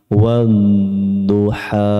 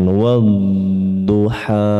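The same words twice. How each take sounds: The two takes are said the same way.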